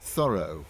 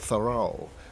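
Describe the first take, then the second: First: The name has a non-American pronunciation. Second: The name has an American pronunciation.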